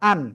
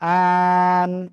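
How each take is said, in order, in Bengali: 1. অক্ষরটি ছোট ও দ্রুত বলা হয়। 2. অক্ষরটি ধীরে টেনে বলা হয়। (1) "তাড়াতাড়ি হবে" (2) "এরকম বলা যাবে না"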